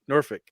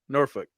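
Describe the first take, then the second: First: The L sound is left silent. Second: The L sound is left silent.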